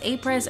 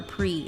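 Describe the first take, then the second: First: The word ends with an audible S sound. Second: The word ends on a vowel, no S sound. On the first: The speaker calls it wrong. "you probably shouldn't pronounce the S" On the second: The speaker calls it right. "I'm going to say A Apri"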